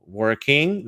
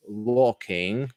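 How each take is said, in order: First: "working" with a strong American R; American accent. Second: "Walking" for working, British with no R sound; British accent. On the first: Teacher naming each version for students, American accent on "working". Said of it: "that would be American". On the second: Teacher naming each version for students, British accent on "Walking". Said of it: "would be British". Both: Shown as a demonstration.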